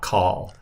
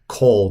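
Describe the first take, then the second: First: The vowel sounds like 'ah'. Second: The vowel sounds like 'oh'. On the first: The speaker calls it wrong. "not kal" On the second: The speaker calls it right. "you always pronounce it kol"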